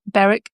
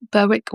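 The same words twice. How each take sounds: First: BERWICK with silent W, "BERR-ick"; pronunciation alternative. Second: BERWICK with the W sounded, "BUR-wick"; pronunciation alternative. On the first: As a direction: say BERWICK to rhyme with Derek. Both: Shown as a demonstration. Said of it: "not quite sure how best to pronounce".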